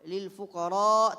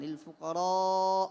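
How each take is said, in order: First: The final vowel is held only briefly. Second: The final vowel is held long. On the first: The speaker calls it wrong. "tidak memanjangkan empat atau lima harakat" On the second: The speaker calls it right. "Jadi dipanjangkan lil fuqara, panjang"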